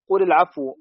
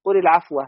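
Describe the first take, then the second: First: العفو ending in a -u sound; nominative reading. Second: العفو ending in a short -a; accusative reading. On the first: Reciter reads out the Basran reading, nominative ending. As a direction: read العفو with a final damma, "al-'afwu". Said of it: "رفعا". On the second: Reciter reads out the Kufan reading, accusative ending. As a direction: read العفو with a final fatha, "al-'afwa". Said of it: "نصبا". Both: Shown as a demonstration.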